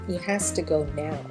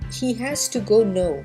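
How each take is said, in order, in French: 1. Le dernier mot sonne comme now. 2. Le dernier mot sonne comme no. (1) "au lieu de" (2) "Beaucoup de francophones vont dire"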